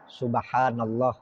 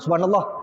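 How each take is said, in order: First: It is said at an ordinary, standard pace. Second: It is said quickly and hurriedly.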